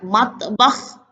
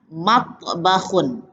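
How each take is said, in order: First: The word ends bare, without final vowel. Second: The word ends with a vowel and n.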